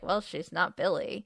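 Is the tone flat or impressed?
flat. It is said in a plain, flat tone.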